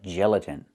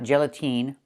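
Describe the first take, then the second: First: The last vowel is a short I sound. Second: The last vowel is a long E sound. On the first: The speaker calls it right. "It's the short I like this is. It's more open" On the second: The speaker calls it wrong. "not gelatine"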